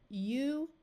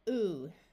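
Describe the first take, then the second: First: The vowel begins with a 'y' glide. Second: The vowel has no 'y' glide before it.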